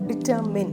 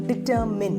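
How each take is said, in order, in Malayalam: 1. അവസാന syllable 'min' പോലെ കേൾക്കുന്നു. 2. അവസാന സിലബിൾ 'min' പോലെ കേൾക്കുന്നു.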